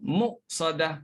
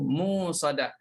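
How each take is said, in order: First: The word has a firm glottal stop before s. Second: The word is said without a glottal stop. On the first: This follows the Hafs reading. "Hafsnya muqsadah" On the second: This follows the Syu'bah reading. "mengikut Syu'bahnya begitu"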